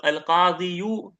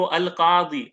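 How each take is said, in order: First: अल-काज़ियू slowly, with an added yu; heavy ending on अल-काज़ियू. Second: अल-काज़ी ending on a long ee; light ending on अल-काज़ी. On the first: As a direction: draw out अल-काज़ियू to sound the final yu. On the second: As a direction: say अल-काज़ी, stopping on the ee with no final yu. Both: Shown as a demonstration. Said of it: "अल-काज़ियू पढ़ना सिकल है".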